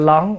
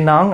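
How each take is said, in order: First: The word begins with an l sound. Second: The word begins with an n sound. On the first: The speaker calls it wrong. "cái nón ổng kêu cái lón" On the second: The speaker calls it right. "hễ n ổng ra l"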